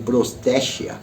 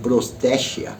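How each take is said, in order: First: The middle consonant is a soft sh sound. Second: The same.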